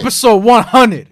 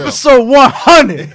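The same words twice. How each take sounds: First: It is said in a calm, plain tone. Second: It is said in an angry, aggressive tone.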